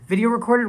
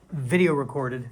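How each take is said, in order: First: Mock old-fashioned. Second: Said in the usual way. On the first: Repeats phrase in mock old-fashioned tone.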